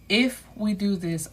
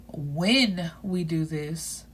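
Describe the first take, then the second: First: If lifted at the front of the phrase; stress on If. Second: When drawn out slowly, firmly weighted; stress on When. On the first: She warns she better be the only one, If stressed. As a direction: lean on If as a condition. She sets condition, he corrects it. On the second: He answers her doubt, correcting it with a long When. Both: Acted.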